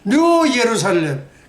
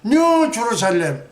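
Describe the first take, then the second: First: The name begins with a Y sound. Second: The name begins with a J sound. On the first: The speaker calls it right. "예루살렘이 진짜입니다" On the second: The speaker calls it wrong. "그 발음이 영어는 주루살렘"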